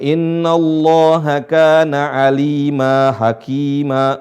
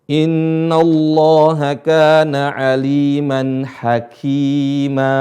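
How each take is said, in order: First: The word aliman drops its final n sound. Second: The word aliman keeps its final n sound. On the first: The speaker calls it wrong. "enggak boleh baca" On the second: The speaker calls it right. "Kalau berhenti"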